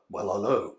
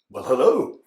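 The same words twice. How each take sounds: First: It is said in a lower-pitched voice. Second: It is said in a higher-pitched voice.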